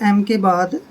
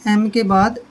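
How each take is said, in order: The two takes are said the same way.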